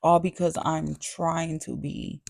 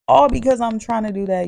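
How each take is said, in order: First: Said in the usual way. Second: Higher, louder and fast, fed up; exasperated repeat. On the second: Real, not acted. Repeating herself to critics, loud and exasperated. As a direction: push it out, exasperated.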